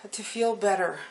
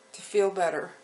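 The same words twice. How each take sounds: The two takes are said the same way.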